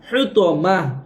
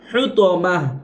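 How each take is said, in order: The two takes are said the same way.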